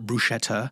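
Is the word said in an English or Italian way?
English. The word is said with an English-style pronunciation. The speaker calls it wrong. "So no more"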